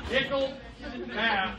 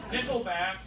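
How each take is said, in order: First: "Nickelback" stretched slowly with a falling end; drawn-out Nickelback. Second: Said in the usual way. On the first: Shown as a demonstration. Comic repeating the band name slowly to the crowd. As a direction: savour "Nickelback" slowly, letting it drop.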